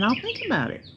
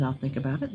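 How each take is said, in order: First: Pitched up high. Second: Said in the usual way. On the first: Retold or imitated. Mom explaining what her maybe meant, said high and lilting. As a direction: sing think up high and let it fall. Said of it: "It meant". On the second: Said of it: "If I said".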